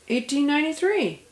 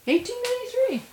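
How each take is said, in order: First: Said in the usual way. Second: Surprised, high "Eighteen ninety-three"; rising in disbelief on the date. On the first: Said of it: "repeats with surprise". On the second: Real, not acted. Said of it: "I thought it was later".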